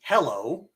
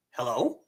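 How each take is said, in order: First: Said in the usual way. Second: "hello" rising at the end like a question; upward-lilting "hello"; questioning rise. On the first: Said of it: "It's the difference between". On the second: Shown as a demonstration. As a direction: ask "hello" with the voice going up. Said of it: "Notice the voice raises".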